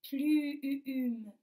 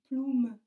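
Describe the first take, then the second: First: The vowel is a rounded front 'u'. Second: The vowel is a rounded back 'ou'. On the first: The speaker calls it right. "Oui, c'est le U" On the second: The speaker calls it wrong. "pas plume"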